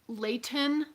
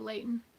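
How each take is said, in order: First: The middle T is clearly pronounced. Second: The middle T is dropped, Utah style.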